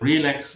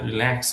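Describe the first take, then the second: First: The stress is on the first syllable. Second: The stress is on the second syllable. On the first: The speaker calls it wrong. "আমরা relax বলছি না" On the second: The speaker calls it right. "ল্যাক্সের এখানে আমরা stress দিচ্ছি"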